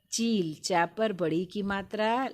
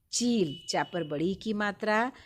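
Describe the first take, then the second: First: चील with the ई stretched long; long vowel drawn out. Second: चील said slowly, its ई held long; long vowel drawn out. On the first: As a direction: draw out the ई in चील for the children. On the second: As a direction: stretch the ई of चील again. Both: Shown as a demonstration. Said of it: "खींच कर बोलते हैं।".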